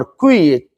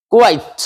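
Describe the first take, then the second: First: क्विट said short, with a short i sound; wrong word contrasted. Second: क्वाइट with a long ai sound; correct pronunciation. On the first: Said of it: "क्विट नहीं है". (ग़लत उच्चारण वाला शब्द) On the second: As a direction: say क्वाइट, stretching the ai. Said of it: "क्वाइट माने बिल्कुल". (सही उच्चारण) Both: Shown as a demonstration.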